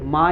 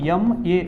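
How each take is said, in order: First: It is said as one syllable, ma. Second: It is said as two letter names, em-ay. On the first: The speaker calls it wrong. "तुम्ही हे असं म्हणत नाही की I did मा in English" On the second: The speaker calls it right. "याला यम ए असं म्हणतो"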